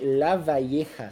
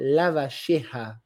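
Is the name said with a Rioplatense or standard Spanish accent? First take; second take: standard Spanish; Rioplatense. First: The name has the standard Spanish 'y' sound. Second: The name has the Rioplatense 'sh'-like sound.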